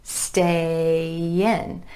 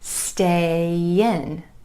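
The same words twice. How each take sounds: First: The words are joined by a gentle y glide. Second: The same.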